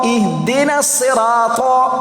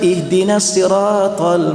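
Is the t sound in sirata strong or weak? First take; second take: strong; weak. First: The t sound is strong and heavy. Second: The t sound is weak and light. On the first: The speaker calls it right. "huruf ta baris atas sangat kuat" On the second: The speaker calls it wrong. "Tapi dia baca"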